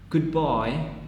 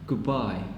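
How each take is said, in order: First: The word 'good' ends in a d sound. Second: The word 'good' ends in a b sound.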